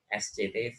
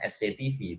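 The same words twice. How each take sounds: First: The letters are named the Indonesian way. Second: The letters are named the English way. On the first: The speaker calls it right. "tapi S C T V. Itu sudah betul" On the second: The speaker calls it wrong. "bukan S C T V"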